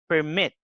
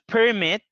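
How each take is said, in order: First: The stress is on the second syllable. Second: The stress is on the first syllable. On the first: It is used as a verb. "we move the stress to the next syllable, to the second syllable" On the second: It is used as a noun. "the stress is in the first syllable"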